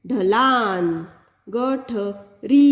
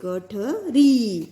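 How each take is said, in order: First: ढलान and गठरी drawn out slowly; slow teacher demo; slow clear reading. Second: गठरी drawn out, ई held long; slow teacher demo; slow clear reading. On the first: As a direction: read slowly for pupils. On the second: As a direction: stretch the final ई in गठरी. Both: Shown as a demonstration. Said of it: "बड़ी ई है".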